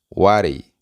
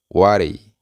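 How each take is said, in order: First: The words blend into one reduced word. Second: The same.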